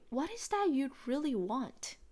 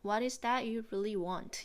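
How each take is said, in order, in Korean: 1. 생동감 있게, 감정을 살려서 말하고 있어요. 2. 감정 없이 평평하게 말하고 있어요. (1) "똑같이" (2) "그냥, ... 이게 아니라"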